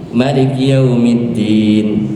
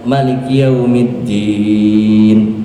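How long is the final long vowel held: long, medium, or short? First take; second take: short; long. First: The final long vowel is held for two counts. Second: The final long vowel is held for six counts. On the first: "dua harkat" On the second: "enam harkat"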